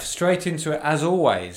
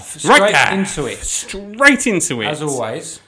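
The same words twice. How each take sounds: First: It is said flatly, with little energy. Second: It is said with lively, raised energy. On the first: The speaker calls it wrong. "You sounded diffused, muted" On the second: The speaker calls it right. "I wanted more energy from that"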